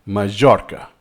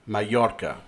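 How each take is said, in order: First: MAJORCA with a hard English J, ma-JOR-ka; English J pronunciation. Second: MALLORCA with a Y glide, ma-YOR-ka; approximant Y pronunciation. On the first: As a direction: say "Majorca" with J as in jar. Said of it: "that's what they say". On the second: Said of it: "commonly, with this I". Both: Shown as a demonstration.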